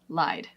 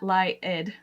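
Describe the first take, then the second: First: The D follows the vowel directly, in one syllable. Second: An extra vowel syllable comes before the final D. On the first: The speaker calls it right. "it's lied" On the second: The speaker calls it wrong. "it's not lie-ed"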